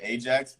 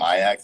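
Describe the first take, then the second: First: Said the way the Greek mythological hero's name sounds. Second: Said the way the Dutch football club's name sounds. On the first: This is the owner's own pronunciation, from mythology. "I pronounce it Ajax" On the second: This is how others say it, from soccer. "because it's written and I'm a soccer person, everyone calls him Ajax"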